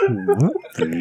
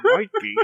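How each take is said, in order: First: Said in the usual way. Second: Giggling through it; laughing. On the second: Real, not acted. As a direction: laugh the words out. Laughing echo.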